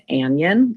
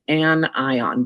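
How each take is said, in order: First: It is said blended together like an onion. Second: It is said as separate syllables, an-eye-on. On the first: The speaker calls it wrong. "like an onion, but that is not what this word is" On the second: The speaker calls it right. "we pronounce them as separate syllables"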